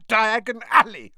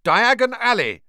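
First: Loud shout through coughing; choked shout. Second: Loud high shout. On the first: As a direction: call it out while choking. Choking on ash while calling. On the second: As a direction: call it out into the fire. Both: A narrator's reading.

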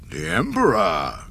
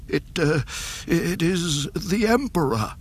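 First: Darth Vader voice. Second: Higher, shaky frightened officer; trembling voice. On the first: Acted. Vader repeats the news. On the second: A narrator's reading. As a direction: stammer it out in fear. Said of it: "The Admiral's trembling voice shook".

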